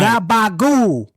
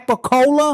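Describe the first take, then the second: First: The word is clipped, voiced and ends in -gool. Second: All syllables are said in full. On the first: This is how Italian Americans say it. The speaker calls it right. "G A B A G O O L" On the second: This is the form someone else insisted on. The speaker calls it wrong. "He wants to tell me it's"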